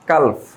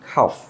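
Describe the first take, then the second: First: The l sound is pronounced. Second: The l sound is silent. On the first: The speaker calls it wrong. "এটাকে আমরা বলি কালফ" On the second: The speaker calls it right. "এখানে এল উচ্চারণ হবে না"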